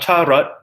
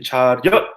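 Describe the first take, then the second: First: The second syllable is rut, with no y sound. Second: The second syllable is ryut, with a y sound. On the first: Listeners cannot tell what word is meant. The speaker calls it wrong. "if you just say rut, cha rut, people don't really know what you're saying" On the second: Listeners recognize the word. The speaker calls it right. "add a y into there"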